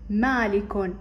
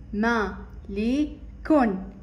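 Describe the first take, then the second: First: Said in the usual way. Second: Slow ما لي كون with gaps between; syllable by syllable. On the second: Shown as a demonstration. Teacher sounding out مالك for children, slowly. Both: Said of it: "متكونة من ثلاثة مقاطع".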